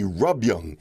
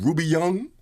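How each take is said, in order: First: The first part has one syllable. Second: The first part has two syllables. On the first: The speaker calls it right. "I finally read it in plain text, R U B" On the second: The speaker calls it wrong. "I don't know why I keep saying Ruby Young"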